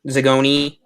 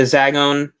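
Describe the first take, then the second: First: "Zagoni" as zuh-GOH-nee, three syllables; self-correct to "Zagoni", ending on a clear "nee"; corrected pronunciation. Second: "Zagon" cut to two syllables, without the final "ee"; mispronounced Zagon. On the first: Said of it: "I said it right this time". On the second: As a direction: say "Zagon" wrongly, dropping the last "ee" sound. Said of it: "I'm not gonna keep mispronouncing it". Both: Real, not acted.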